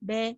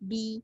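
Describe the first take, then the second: First: The vowel sounds like an open 'e'. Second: The vowel sounds like a clear 'i'. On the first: The speaker calls it wrong. "இப்படி மேலேயே இருக்கும்" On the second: The speaker calls it right. "கீழே பி பி இப்படி சொல்லும் போது கிளீனா அந்த எழுத்து வரும்"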